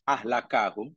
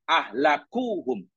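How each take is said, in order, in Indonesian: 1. Vokal setelah k adalah 'a'. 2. Vokal setelah k adalah 'u'. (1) "kaf boleh di baris atas" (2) "boleh dibaca dhammah"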